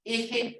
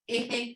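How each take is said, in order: No difference in how they are said.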